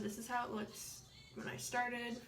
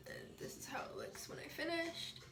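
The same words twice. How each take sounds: First: Said in the usual way. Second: Soft, airy whispered finish; whispered reveal. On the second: Real, not acted. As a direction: breathe the words out as a whisper. Before and after lash comparison.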